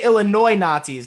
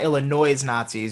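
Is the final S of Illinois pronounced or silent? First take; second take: silent; pronounced. First: Illinois ends without an S sound. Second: Illinois ends with an audible S sound. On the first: The speaker calls it right. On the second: The speaker calls it wrong.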